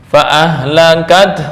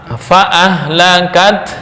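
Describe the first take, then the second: The two takes are said the same way.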